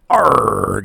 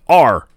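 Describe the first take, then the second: First: It is a gritty pirate growl. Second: It is a weak growl with no grit.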